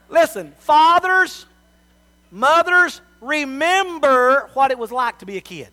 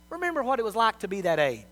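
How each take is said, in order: First: Loud, higher, slow call to the parents; preaching appeal. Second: Said in the usual way. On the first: Real, not acted. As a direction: plead with them from the pulpit, full force.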